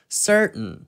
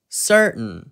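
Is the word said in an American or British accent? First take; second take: American; American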